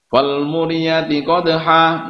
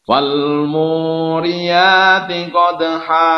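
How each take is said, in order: First: It is recited hurriedly with the long vowel cut short. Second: It is recited slowly with the long vowel held. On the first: The speaker calls it wrong. "enggak boleh kita baca tergesa-gesa, baca enggak tartil" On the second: The speaker calls it right. "Yang betul"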